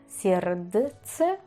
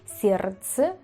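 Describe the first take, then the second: First: A D sound is heard in the middle. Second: The D is silent in the middle. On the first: The speaker calls it wrong. "Ni siquiera sabría pronunciarlo con la D" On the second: The speaker calls it right. "se debería decir Sierze"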